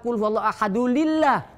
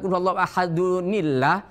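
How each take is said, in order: First: Ahadu links to illah with an l sound. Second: Ahadu links to illah with an n sound. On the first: The speaker calls it wrong. "Kalau lillah kan ada lam dua di situ katanya" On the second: The speaker calls it right. "Kok bacanya qul huwallahu ahadunillah?"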